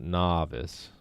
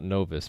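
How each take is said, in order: First: The first syllable sounds like 'naw'. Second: The first syllable does not sound like 'naw'. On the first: The speaker calls it right. "but novice. Like N A W. Naw" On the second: The speaker calls it wrong. "Not novice"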